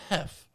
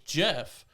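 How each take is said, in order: First: The name is said with a Spanish accent. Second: The name is said with an English accent.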